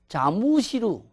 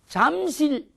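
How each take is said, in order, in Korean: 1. 일본식으로, 열린 음절 네 개로 발음해요. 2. 한국식으로, 두 음절로 발음해요.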